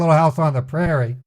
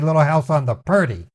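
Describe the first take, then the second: First: The last word is said as 'prairie'. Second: The last word is said as 'purdy'. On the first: The speaker calls it right. "My dad wouldn't say" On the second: The speaker calls it wrong. "My dad would say"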